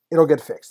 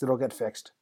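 First: Louder, emphatic promise. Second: Said in the usual way. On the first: Real, not acted. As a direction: say it out loud and firm. Repeats reassurance, first one louder.

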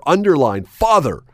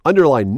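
First: Father punched, falling; emphatic repeat. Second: Stretched, falling stress on Underline; emphatic underline. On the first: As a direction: hit father as the underlined word. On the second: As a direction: say Underline like a stern rule. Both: Acted.

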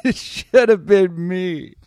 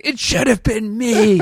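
First: High, slow, loud anguished wail; anguished survivor. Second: High, loud anguished cry through laughter; anguished survivor. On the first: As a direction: drag out the lament melodramatically. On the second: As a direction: wail it, half laughing. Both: Pretend. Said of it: "the guy in the other track's like".

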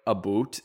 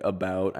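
First: "a boot" with an oo vowel for about. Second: Said in the usual way. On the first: Shown as a demonstration. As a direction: say "a boot" rhyming with suit. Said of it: "I never said, like, a boot instead of". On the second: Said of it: "instead of, like, about".

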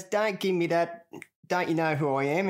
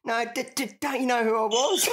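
First: Mock bouncer. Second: Much higher, louder stammer with a rising end; comic squeaky stammer of the injured jockey; imitated stuttering protest. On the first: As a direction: play the smug security guard. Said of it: "he goes". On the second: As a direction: ham up the stuck, indignant plea. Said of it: "you said".

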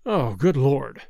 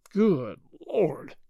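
First: Low, heavy groan; deep groan of despair; exasperated groan. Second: Slow-spaced, dismayed exclamation; drawn-out exasperation; exasperated repeat. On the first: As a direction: groan it out in dismay, pitched down. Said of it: "he groaned". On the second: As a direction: break the two words apart in disbelief. Repeats groan, pounding the table. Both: A narrator's reading.

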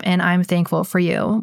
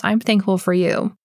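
First: Said in the usual way. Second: Heartfelt, said straight to her; mean every word of it; sincere thanks. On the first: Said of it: "reading the listener review". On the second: Real, not acted. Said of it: "Well, Cindy Torts".

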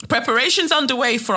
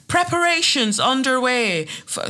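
First: Said in the usual way. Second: High-pitched attempt at a Northern Irish accent; bad Northern Irish accent. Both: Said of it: "that was a shit accent".

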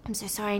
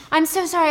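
First: Hushed grovelling apology. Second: Higher, louder frantic apology; high fluttery sorry. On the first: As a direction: apologise meekly to a rich client. Head waiter grovels to customer. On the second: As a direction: blurt it out nervously. Waitress apologizing again. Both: Retold or imitated.

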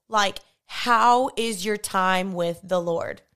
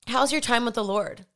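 First: Slow, with "how" leaned on hard; slow down and press "how" so it means really; stress on how. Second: Said in the usual way. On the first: Retold or imitated. Mentor asks again, pressing "how" slowly. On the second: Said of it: "and she was like".

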